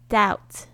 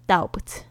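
First: The word is said with no b sound. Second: The word is said with a b sound. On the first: The speaker calls it right. "注意一下b 不要发音" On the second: The speaker calls it wrong. "你不要念成doubt，OK 会很傻"

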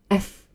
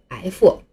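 First: It ends in a soft f with no vowel. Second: An extra vowel follows the final f sound. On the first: The speaker calls it right. "下面我们把2 个音连在一起念一下" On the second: The speaker calls it wrong. "常见的一种错误的读法就是f，这就完完全全的错了啊"

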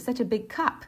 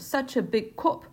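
First: Cup is said with an open, wide vowel. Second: Cup is said far back, sounding like cop. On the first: "那美国的发音就是such a big cup" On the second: "英音的口音……他说such a big cup……怎么cop 是警察"

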